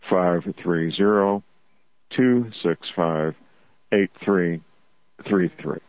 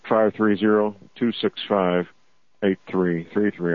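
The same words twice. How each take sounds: First: It is read slowly. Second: It is read at normal speed.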